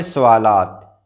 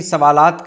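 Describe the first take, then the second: First: सवालात said with "u" after s; correct pronunciation. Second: सवालात with "a" after s; wrong pronunciation. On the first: Teacher giving the right plural, correctly pronounced. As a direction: say "su-waa-laat" for सवालात. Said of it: "जमा में". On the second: Teacher showing the wrong plural, mispronounced. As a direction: say "sa-waa-laat" for सवालात. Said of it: "ये गलत हो जाएगा". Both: Shown as a demonstration.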